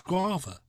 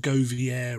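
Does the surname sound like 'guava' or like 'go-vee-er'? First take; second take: guava; go-vee-er. First: The surname is said like the fruit 'guava'. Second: The surname is said like 'go-vee-er'. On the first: The speaker calls it right. "It's Guava" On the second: The speaker calls it wrong. "people call him Govier or Govier or whatever"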